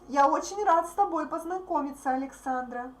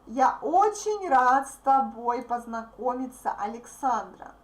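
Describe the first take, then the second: First: The sentence is spoken at a fast pace. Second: The sentence is spoken at a slower pace.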